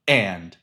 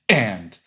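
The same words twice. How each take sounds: First: The word begins with a sharp glottal catch. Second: The word begins with a sharp glottal catch.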